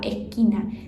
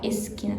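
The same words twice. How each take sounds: First: The s is aspirated, Argentine style. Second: The s before the consonant is pronounced clearly.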